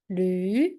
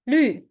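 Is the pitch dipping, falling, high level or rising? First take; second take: rising; falling. First: The pitch rises from mid to high. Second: The pitch falls sharply from high. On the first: "And how to say the second tone?" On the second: "And the last tone?"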